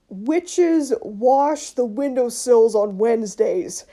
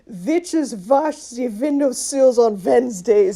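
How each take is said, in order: First: It is said in a plain English accent. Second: It is said in a German-style English accent. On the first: "So you end up with sentences like" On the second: "And then they just say it like"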